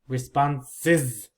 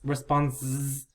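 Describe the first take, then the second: First: The plural ending adds an extra syllable. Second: The plural ending adds no extra syllable. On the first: The speaker calls it right. "One more syllable is" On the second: The speaker calls it wrong. "So I don't hear response, responses"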